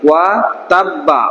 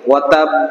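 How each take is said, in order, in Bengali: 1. বাক্যাংশটি একটি স্বরধ্বনি দিয়ে শেষ হয়। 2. বাক্যাংশটি একটি রুদ্ধ ব্যঞ্জন দিয়ে শেষ হয়। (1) "এখানে তো আছে কি ওয়া তাব্বা" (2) "এখানে আমরা দম সারবো, এখানে হয়ে যাবে কি ওয়া তাব"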